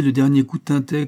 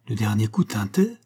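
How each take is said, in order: First: Louder, higher eager statement; emphatic confirmation. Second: Even echo question, rising at the end; unflinching. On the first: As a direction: confirm it forcefully. Agitated answer, later echoed as question. (affirmation forte et animée) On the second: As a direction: repeat it deadpan, as a question. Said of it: "répéta Jacques sans sourciller". (question répétée sans sourciller) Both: A narrator's reading.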